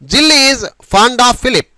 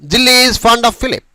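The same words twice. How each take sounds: First: It is said slowly and carefully. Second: It is said faster, like normal conversation.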